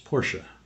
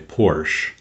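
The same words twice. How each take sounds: First: The final e is pronounced as a syllable. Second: The final e is silent, like porch. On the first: The speaker calls it right. "the proper pronunciation of the car company is Porsche" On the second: The speaker calls it wrong. "many people say Porsche"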